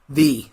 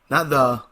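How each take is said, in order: First: The word is said the special emphatic way. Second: The word is said the ordinary way. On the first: This is how the school says its name. "That's how they say it" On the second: This is the usual way people say it.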